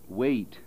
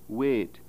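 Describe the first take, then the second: First: The vowel glides as a diphthong. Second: The vowel is a pure, steady vowel. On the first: "Normal American pronunciation is wait, which is a diphthong" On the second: "in the Scottish pronunciation of a word wait"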